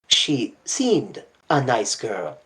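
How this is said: The stress is on "seemed".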